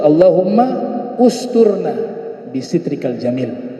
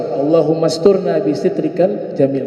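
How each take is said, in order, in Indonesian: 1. Kata kedua mulai baru dengan vokal yang terpisah. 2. Kata kedua langsung menyambung dari kata pertama. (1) "Kalau dibaca secara qat'i, ya, terputus" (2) "kalau dibaca wasal"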